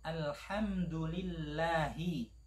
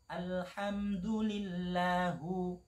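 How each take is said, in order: First: The word ends with an i vowel. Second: The word ends with a u vowel. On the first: The speaker calls it right. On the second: The speaker calls it wrong.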